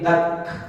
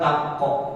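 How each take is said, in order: First: The k ends in a soft hiss without a vowel. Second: The k bounces out with a short vowel after it. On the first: The speaker calls it right. "Tapi tak. Hamas" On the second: The speaker calls it wrong. "Bukan takok, bukan apa tak, bukan begitu, salah"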